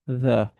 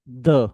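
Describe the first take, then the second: First: THE with a light TH, tongue between teeth. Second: THE said as a hard, punched DUH; THE with a D sound instead of TH; mistaken hard THE. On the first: Teacher models the sound for learners, light TH. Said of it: "that a very light sound". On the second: Teacher shows students what to avoid, hard D. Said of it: "It is not the". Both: Shown as a demonstration.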